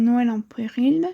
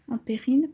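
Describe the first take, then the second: First: Péril said as pril, the first e swallowed; botched word. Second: Péril said clearly as pé-ril, two syllables; corrected word. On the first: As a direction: rush péril into one syllable, pril. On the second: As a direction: fix it and say péril properly, pé-ril. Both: Shown as a demonstration.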